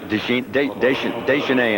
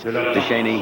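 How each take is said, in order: First: The name is said the way it is in France. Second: The name is said the way it is in Canada. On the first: "in France" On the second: "here in Canada"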